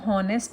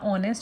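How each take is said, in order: First: The word begins with an h sound. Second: The word begins with a vowel sound. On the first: The speaker calls it wrong. "हॉनेस्ट नहीं बोला" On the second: The speaker calls it right. "एच यहाँ पे silent रहेगा"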